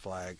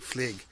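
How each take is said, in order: First: The vowel is an open 'a' sound. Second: The vowel is a closer 'ie' sound.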